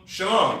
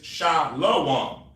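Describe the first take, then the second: First: The second syllable is said like 'lam'. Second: The second syllable is said like 'lom'. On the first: This is how Hebrew speakers say it. The speaker calls it right. "You know how we say shalom? ... Shah and lam" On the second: This is how it reads as translated. The speaker calls it wrong. "it says shalom. That is a mistranslation"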